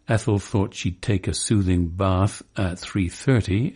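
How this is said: It is said in an old-fashioned Cockney accent. "when an old-fashioned Cockney says"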